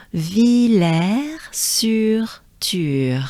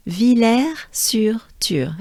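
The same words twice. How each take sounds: First: "Villers-sur-Thur" very slowly, every syllable held; careful pronunciation. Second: "Villers-sur-Thur" in stronger French, less drawn out; extra-French "Villers-sur-Thur", slow with a falling end; more French accent. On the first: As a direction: lead learners through a long, drawn-out "Villers-sur-Thur". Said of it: "Let's do it together". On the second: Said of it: "if you want to sound even more French". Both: Shown as a demonstration.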